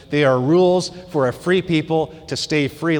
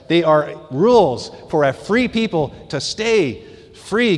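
First: Said in the usual way. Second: Slow, deliberate stress on "they are rules for a free people to stay free"; emphatic repeat. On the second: Shown as a demonstration. Preacher re-reading a line to the congregation to emphasize it, slow and emphatic. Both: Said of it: "Let me emphasize".

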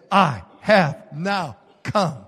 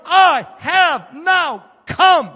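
First: Slow and low, held back; lower, slow solemn declaration. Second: Slow, loud shout, much higher; commanding voice of the Lord's commander. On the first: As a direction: say it gravely, almost inward. Quiet retake of commander's words. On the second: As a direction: proclaim it like a heavenly commander. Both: Acted.

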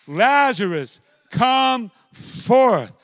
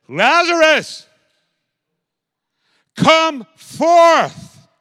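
First: Higher, louder command; loud calling command. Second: Very high, loud, slow ringing command; loud commanding call. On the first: Jesus calling dead Lazarus out of the tomb. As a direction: call him out once more. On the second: Jesus crying out to dead Lazarus, loud and commanding. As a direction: call the dead man out of the tomb. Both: Acted. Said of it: "he said it with a loud voice".

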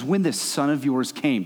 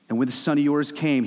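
First: "this" pressed slow and cold; scornful stress on this. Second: Said in the usual way. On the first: Retold or imitated. Older brother disowning his brother, stress on "this". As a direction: lean on "this son of yours", slowly. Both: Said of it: "doesn't even use his name".

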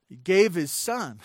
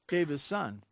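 First: Said in the usual way. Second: Softer, sinking repeat of "Gave his son"; soft echo. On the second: Real, not acted. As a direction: let "Gave his son" fall away quietly. Echo of key phrase.

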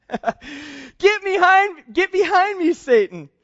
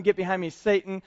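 First: Higher and louder, stretching out the first "behind"; a commanding rebuke that hammers "behind"; forceful rebuke. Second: Said in the usual way. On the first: Acted. Jesus turning on Peter, a loud commanding rebuke. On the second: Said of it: "I think that's a funny thing that he said".

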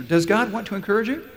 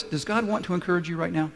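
First: "Does God want to encourage you?" higher, rising at the end; prodding repeat question. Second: Said in the usual way. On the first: Real, not acted. Preacher prods the congregation for an answer, "Does God want to encourage you?" asked higher and rising.

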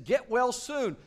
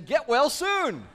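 First: Higher, louder sing-song mock; mock-sweet scolding; mocking teachers. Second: High, slow, drawn-out get-well wish; lightly mocking card voice; balloon message. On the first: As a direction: parody the legalistic teachers. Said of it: "they're gonna be saying". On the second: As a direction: read the balloon like a chirpy card. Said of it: "a balloon saying".

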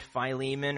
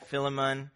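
First: "Philemon" as fye-LEE-mun; long-i pronunciation. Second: "Philemon" as FILL-uh-mun; short-i pronunciation. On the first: Preacher naming the letter's recipient, Philemon said fye-LEE-mun. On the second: Preacher offering an alternative name reading, Philemon said FILL-uh-mun. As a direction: say "Philemon" with a short i, stress up front. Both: Shown as a demonstration. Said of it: "however one pronounces that".

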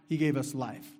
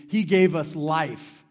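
First: Said in the usual way. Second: Slow, loud declaration; emphatic proclamation. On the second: Real, not acted. Preacher proclaiming to the church, slow loud declaration. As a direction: proclaim it slowly.

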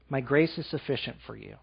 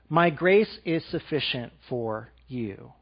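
First: Much softer, lower echo of the words; softer, lower second take of My grace; hushed repeat. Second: Softer, slower, lower reading; soft slow voice of God, lower; tender divine voice. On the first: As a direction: let it fall to a near hush. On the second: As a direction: let God's words land gently. Reading God's words. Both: Acted.

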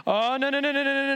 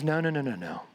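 First: High, alarmed run of no's from the pro-Paul group; panicked protest. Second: Lower, steady no's as Paul; calm firm refusal. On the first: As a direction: plead in dismay, pitch pushed up. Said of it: "How do you think the pro-Paul group felt". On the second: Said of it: "But Paul says". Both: Acted.

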